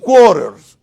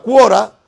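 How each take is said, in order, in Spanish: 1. La palabra se dice con el sonido de la r del medio. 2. La palabra se dice sin el sonido de la r del medio. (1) "se dice un quarters" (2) "no se dice una cuora"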